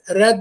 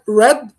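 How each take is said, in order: First: The R is a tapped Arabic-style sound. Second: The R is a smooth English-style sound. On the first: "red with R, like the Arabic R" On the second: "I said red with ra, ra. The R sound is ra"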